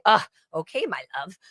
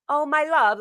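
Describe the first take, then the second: First: Grudging, irritated use of a pet name; mildly angry. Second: High-pitched, doting pet-name coo; endearing. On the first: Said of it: "or if you're angry". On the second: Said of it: "my love is so dearing". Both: Shown as a demonstration.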